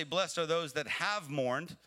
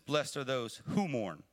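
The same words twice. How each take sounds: First: "have" stressed, slow, with a rising end; "have mourned" leaned on as past tense. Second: "who" stressed, slow, with a falling end; "who mourn" stressed as present tense. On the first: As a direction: lean on "have" as the wrong reading, slowly. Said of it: "he doesn't say". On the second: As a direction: slowly land on "who mourn" as ongoing. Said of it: "He says". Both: Shown as a demonstration.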